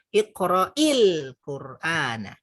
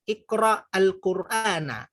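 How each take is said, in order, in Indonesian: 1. Kata pertama diberi 'i' lalu tersambung ke kata berikutnya. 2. Kata pertama berakhir polos, tanpa vokal tambahan.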